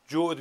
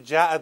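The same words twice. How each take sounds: First: The word is said with an 'o' vowel. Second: The word is said with an 'a' vowel. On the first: The speaker calls it wrong. "همه چی رو بر وزن جغد تلفظ میکنه" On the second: The speaker calls it right. "مشکل بیسوادیش که جعد رو"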